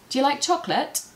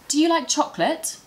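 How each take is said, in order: First: The words run together, 'do you' becoming 'dya'. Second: Each word is said clearly and separately. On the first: It is natural, relaxed everyday speech. "naturally, I would say" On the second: It suits a formal, careful situation. "This is how I would say it in the classroom"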